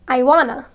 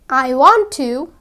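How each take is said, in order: First: The words are contracted into a shorter form. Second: Each word is said fully and separately.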